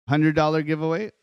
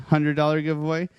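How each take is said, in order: No difference in how they are said.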